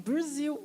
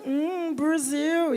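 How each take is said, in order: First: Put-on Brasil in an American accent, rising like a question; puzzled American Brasil. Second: Brasil drawn out very slowly, suggestive and falling; a mock lecherous hum, Brasil, very slow; leering Brasil. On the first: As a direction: say Brasil as a confused gringo asking what it is. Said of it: "Aí eles fazem". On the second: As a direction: savour Brasil slowly like a gringo on the prowl. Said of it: "o cara acha que tu tá lá disponível sexualmente".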